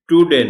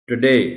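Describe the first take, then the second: First: The stress is on the first syllable. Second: The stress is on the second syllable. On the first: The speaker calls it wrong. "Today नहीं कहना" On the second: The speaker calls it right. "डी पर stress है इसमें"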